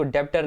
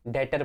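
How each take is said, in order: First: "डेबिटर" said deb-tar, b sounded; wrong pronunciation. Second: "डेटर" said det-ar, no b; silent b. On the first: Teacher shows students the wrong reading, sounded b. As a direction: pronounce the b in "डेबिटर". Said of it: "डेबिटर नहीं पढ़ना है". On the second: Teacher gives students the right reading, silent b. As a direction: say "डेटर" with the b dropped. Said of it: "डेटर पढ़ना है". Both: Shown as a demonstration.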